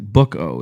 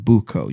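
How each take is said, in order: First: The first syllable sounds like the word book. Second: The first syllable does not sound like book. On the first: The speaker calls it wrong. "it looks like the word book" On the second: The speaker calls it right. "you said it right the second time"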